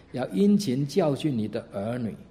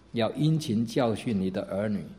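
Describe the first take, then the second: No difference in how they are said.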